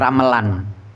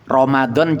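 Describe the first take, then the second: First: The third consonant is an l sound. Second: The third consonant is a d sound.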